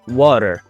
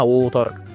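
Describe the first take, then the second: First: The first vowel sounds like 'ah'. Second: The first vowel sounds like 'oo'. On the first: The speaker calls it wrong. "بيقول لك ها قال ايه اسمها واتر" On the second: The speaker calls it right. "هو اسمها ووتر"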